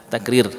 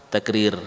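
The two takes are said the same way.

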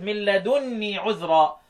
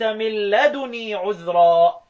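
First: The n sound in ladunī is long and doubled. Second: The n sound in ladunī is short and single. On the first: This is the reading of the remaining readers. "بالتشديد" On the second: This is the reading of Nafi' and Shu'ba. "بالتخفيف"

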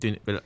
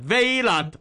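First: The word is said short and clipped. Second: The word is drawn out with an added sound. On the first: The speaker calls it right. "短Vela" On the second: The speaker calls it wrong. "港式英文系Vela，咁样有个D 音嘅"

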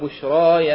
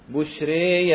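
First: The final long vowel is an open 'a'. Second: The final long vowel leans strongly toward 'e'. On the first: "فتح" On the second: "الإمالة الكبرى"

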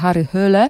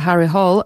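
First: The surname is pronounced the Norwegian way. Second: The surname is pronounced the English way. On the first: "z norweska" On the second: "z angielska"

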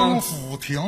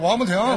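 First: The name is said slowly with every syllable clear. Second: The name is said quickly with the middle syllable blurred. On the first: "这就对了" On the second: "快就王不停"

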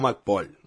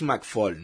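First: The second syllable starts with a P sound. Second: The second syllable starts with an F sound. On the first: The speaker calls it wrong. "no McPaul" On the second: The speaker calls it right. "Es McFall, Se pronuncia con F"

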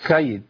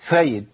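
The two takes are said the same way.

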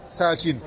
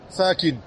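No difference in how they are said.

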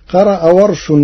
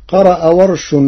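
No difference in how they are said.

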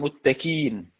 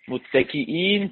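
First: No glottal stop is heard before the final syllable. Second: A glottal stop is heard before the final syllable.

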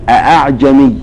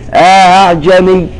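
First: Both hamzas are pronounced fully and distinctly. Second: The second hamza is softened after a short alif. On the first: "بالتحقيق" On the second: "يقرأ بالتسهيل وله إدخال، يثبت ألفا بمقدار حركتين فقط"

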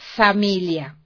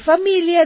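First: The word begins with an s sound. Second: The word begins with an f sound. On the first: The speaker calls it wrong. "dije familia" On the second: The speaker calls it right. "En lugar de familia"

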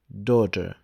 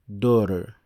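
First: The word is said in a non-American way. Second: The word is said the American way.

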